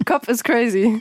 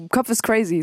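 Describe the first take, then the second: First: Slower, laughing through it; laughing repeat. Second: Said in the usual way. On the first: Shown as a demonstration. Joking about her own head to the host, laughing. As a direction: chuckle while repeating it.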